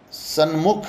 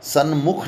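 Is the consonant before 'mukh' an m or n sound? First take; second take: n; n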